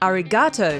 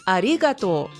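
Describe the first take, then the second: First: The stress falls on the syllable ga. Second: The stress falls on the syllable ri. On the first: The speaker calls it wrong. "foreigners usually stress the ga" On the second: The speaker calls it right. "putting the emphasis on the second syllable"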